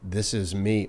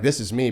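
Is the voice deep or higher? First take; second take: deep; higher. First: The voice is low and deep. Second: The voice is higher and tighter. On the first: The speaker is deeply relaxed. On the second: The speaker is tense before relaxing.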